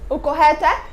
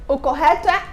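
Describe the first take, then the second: No difference in how they are said.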